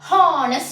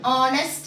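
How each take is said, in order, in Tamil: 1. இந்த வார்த்தை கேட்கக்கூடிய H ஒலியுடன் தொடங்குகிறது. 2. இந்த வார்த்தை H ஒலி இல்லாமல் தொடங்குகிறது. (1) "சொல்ல மாட்டோம்" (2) "தான் சொல்றோம்"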